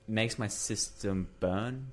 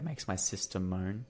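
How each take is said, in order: First: Said in the usual way. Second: "moan" in place of burn, opening on a held M; misheard lyric. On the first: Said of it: "but in the song". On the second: Shown as a demonstration. Showing mates a misheard lyric, ending on "moan". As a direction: show how the lyric blurs into "moan". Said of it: "in the song it sounds like".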